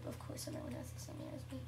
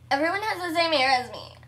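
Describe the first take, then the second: First: Quick, very soft aside; hushed, hurried self-correction; muttered retraction. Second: Quick, loud playful complaint; loud hammed-up grumble; mock outrage. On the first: Real, not acted. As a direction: take it back under your breath. Takes back the mock complaint. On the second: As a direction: protest with pretend anger. Mock complaint, then taken back.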